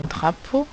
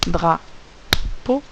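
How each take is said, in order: First: Said in the usual way. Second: "drapeau" split in two beats, dra, then po; syllable by syllable. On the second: Shown as a demonstration. Teacher tapping syllables in the correction, "drapeau" split dra - po. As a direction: tap out "drapeau" with a long gap between syllables. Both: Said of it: "si on tape le mot drapeau".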